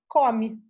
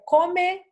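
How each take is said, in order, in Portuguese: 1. A vogal final é reduzida a um som de i. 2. A vogal final é um som de e bem claro. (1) "A gente come" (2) "A gente dificilmente fala é, come"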